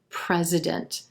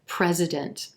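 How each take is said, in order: First: The final T is released very softly. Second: The same.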